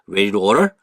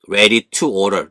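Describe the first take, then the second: First: It is said quickly with the t sound dropped. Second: It is said slowly with a clear t sound.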